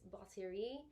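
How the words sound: The word is said with a French pronunciation. The speaker calls it right. "but it's batterie. you gotta have the French uh, accent in there to make it sound right"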